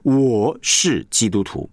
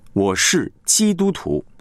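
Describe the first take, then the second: First: The stress falls on 我. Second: The stress falls on 基督徒. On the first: The person, not others, is the point. The speaker calls it wrong. "你会发现那个重点是在我了" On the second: The identity is the point. The speaker calls it right. "你是强调的那个基督徒"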